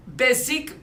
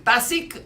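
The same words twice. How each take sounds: First: "basique" with an English "bay" first syllable; English-tinged pronunciation. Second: "basique" with an open "ah", as "bah-seek"; French pronunciation. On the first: Speaker unsure of the French word tries it, English-tinged pronunciation. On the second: Speaker correcting the word for French listeners, French pronunciation. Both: Real, not acted. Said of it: "je ne sais pas en français".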